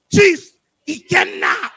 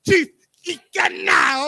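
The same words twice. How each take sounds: First: Loud, slow chant; loud call. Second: African accent. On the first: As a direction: call the name out big. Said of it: "but with your African accent". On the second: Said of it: "with your African accent". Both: Shown as a demonstration.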